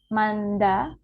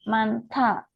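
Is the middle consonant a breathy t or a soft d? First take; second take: soft d; breathy t. First: The middle consonant is a soft d. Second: The middle consonant is a breathy t. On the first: The speaker calls it wrong. "bukan manda" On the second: The speaker calls it right. "D-nya akan dilafalkan menjadi T H"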